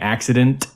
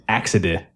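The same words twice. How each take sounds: First: The word ends with the full n and t. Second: The word ends without the final n and t.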